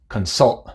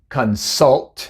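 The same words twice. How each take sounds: First: The final T is a glottal stop. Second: The final T is pronounced as a full T.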